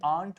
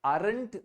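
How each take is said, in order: First: Aren't said as one syllable, "ant" with only a light touch of r; correct pronunciation. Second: Aren't stretched into two syllables, "a-rent" with a full rolled r; wrong pronunciation. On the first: Teacher showing the class the right way: aren't with a faint r. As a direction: say aren't short and clipped, the r barely touched. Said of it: "थोड़ा सा र touch करके निकलना है". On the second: Teacher showing the class the wrong way: aren't as "a-rent". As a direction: spell out aren't slowly with a strong r and a middle vowel. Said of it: "aren't नहीं होता".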